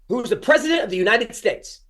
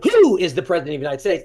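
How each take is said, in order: First: The stress falls on the word president. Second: The stress falls on the word who. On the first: The key information stands out to the listener. The speaker calls it right. "then your brain hears president of the United States" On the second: The listener fixates on an unimportant word. The speaker calls it wrong. "they hear who really big"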